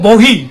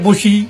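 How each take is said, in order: First: The middle consonant is an h sound. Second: The middle consonant is an s sound. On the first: This is the Assamese way of saying it. "অসমীয়া এতিয়া বহি" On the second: This is the Rajbanshi way of saying it. "ৰাজবংশীয় বসি"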